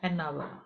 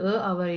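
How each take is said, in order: First: The article is said as 'an', linked to 'hour'. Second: The article is said as plain 'a'. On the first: The speaker calls it right. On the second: The speaker calls it wrong. "a hour இல்ல"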